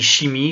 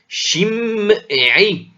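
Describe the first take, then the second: First: The name is said with two syllables. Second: The name is said with three syllables. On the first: The speaker calls it wrong. "en français on n'entend pas, on dit chimie" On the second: The speaker calls it right. "il y a en fait trois, trois, trois syllabes"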